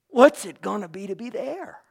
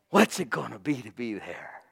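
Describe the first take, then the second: First: Higher, rising, eager question; excited wonder. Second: Wondering aloud, half to yourself; awed wonder. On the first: Believer repeating the question to the congregation, thrilled rise. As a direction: ask it again, lifted with thrill. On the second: Believer dreaming of heaven, hushed awe. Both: Retold or imitated. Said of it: "You'll go, "Wow".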